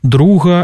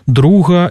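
First: The g is a breathy fricative sound. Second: The same.

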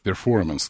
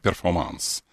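First: It is pronounced in an English manner. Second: It is pronounced in a French manner. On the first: "Ты все-таки по-английски говоришь «перформанс»" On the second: "а я «перформанс». По-французски"

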